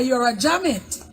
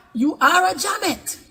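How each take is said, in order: First: Said in the usual way. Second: "are" drawn out and pitched high; stress on ARE. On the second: Real, not acted. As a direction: repeat it slowly, leaning hard on "are". Insistent repeat of the insult.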